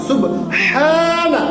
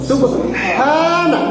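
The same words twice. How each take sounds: Both takes have the same delivery.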